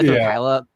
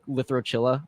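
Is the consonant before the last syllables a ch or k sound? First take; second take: k; ch. First: The consonant in the middle is a k sound. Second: The consonant in the middle is a ch sound. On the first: The speaker calls it right. "that sounds so much cooler" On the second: The speaker calls it wrong. "I really don't like Lithochilla. Like I that just sounds kind of stupid to me"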